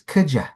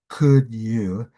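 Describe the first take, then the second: First: The word 'you' is reduced to 'ya'. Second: The word 'you' is said in full. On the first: The speaker calls it right. "it's could ya" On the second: The speaker calls it wrong. "we don't say could you"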